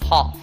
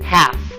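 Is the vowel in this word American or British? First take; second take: British; American. First: The vowel is a rounded o-like sound. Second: The vowel is a wide, open a sound. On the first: "the British accent is rounded" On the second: "the Americans pronounce the a widely"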